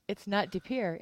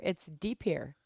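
First: De Pere said the outsider way; outsider pronunciation. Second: De Pere said the local way; local pronunciation. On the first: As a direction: say De Pere like a visitor. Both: Shown as a demonstration. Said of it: "here's a little insider note".

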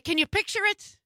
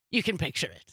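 First: "Can you picture it?" rising high as a question; playful question. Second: "You can picture it." dropped low as a statement; settled answer. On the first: Host asking listeners to imagine the scene, playfully high-pitched question. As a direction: lift "picture it" high, inviting an answer. Asks listeners, then answers herself. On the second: Host answering her own question to listeners, low and settled. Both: Real, not acted.

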